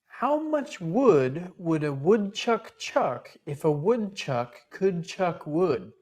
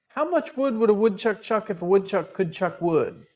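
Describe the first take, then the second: First: It is said at a normal speed. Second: It is said a little faster.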